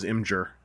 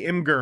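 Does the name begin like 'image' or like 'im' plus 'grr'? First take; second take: image; im-grr. First: It begins with a sound like 'image'. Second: It begins with 'im' and runs into 'grr'. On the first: The speaker calls it right. "it's images. Like, it rolls off the tongue better as Imgur" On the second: The speaker calls it wrong. "I feel like you have to think harder to say that"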